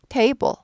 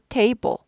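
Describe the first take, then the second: First: The first vowel glides up into an 'ee' sound. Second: The same.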